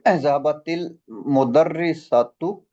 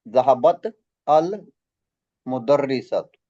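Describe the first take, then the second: First: Zahabat links to the next word with an i sound. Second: Zahabat ends on t before a separate al. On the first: The speaker calls it right. "kita bagi sini kasrah" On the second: The speaker calls it wrong. "Asalnya ada"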